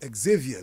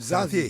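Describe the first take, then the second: First: It is pronounced the American English way. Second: It is pronounced the French way. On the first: The speaker calls it wrong. "the Americans are now saying Xavier" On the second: The speaker calls it right. "but it's the French"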